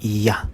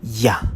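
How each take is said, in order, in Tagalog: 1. Nagsisimula ang pantig sa tunog na Y. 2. Nagsisimula ang pantig sa tunog na Y.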